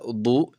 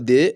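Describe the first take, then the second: First: The vowel is a rounded 'o' sound. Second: The vowel is a high 'ee' sound. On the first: "ولا ضو" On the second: "لا تنطق دي"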